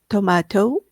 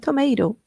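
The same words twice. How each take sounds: First: It is said in a British accent. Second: It is said in an American accent. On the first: "ela britânica" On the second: "ele americano"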